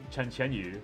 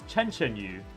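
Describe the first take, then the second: First: The name is said with a Mandarin-style pronunciation. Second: The name is said with an English-style pronunciation. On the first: This is how the name should be said. The speaker calls it right. "instead of" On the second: This is how the voice actress says it. The speaker calls it wrong. "this girl pulls up with like"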